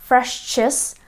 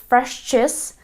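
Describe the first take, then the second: The two takes are said the same way.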